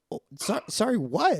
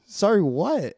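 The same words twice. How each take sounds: First: High, rising startled sorry what; a retold, half-mock startled question to the nurse. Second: A higher, louder alarmed sorry what; hammed-up alarm at the nurse's apology; alarmed repeat. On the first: Telling a friend how she reacted to the nurse, startled high. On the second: Replaying her alarm at the nurse for a friend, loud and high.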